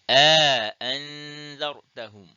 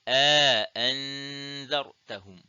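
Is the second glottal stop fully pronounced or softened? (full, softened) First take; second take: full; full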